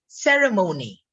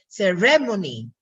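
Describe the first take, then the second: First: "ceremony" stressed on the first syllable, SER-e-mo-ny; "ceremony" with a strong start and long MO; American stress. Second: "ceremony" stressed on the second syllable, se-RE-mo-ni; "ceremony" with a strong RE and short ending; Filipino-English stress. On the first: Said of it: "But in the American, um, English". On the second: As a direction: punch RE in "ceremony". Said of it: "That's for the Philippine English". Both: Shown as a demonstration.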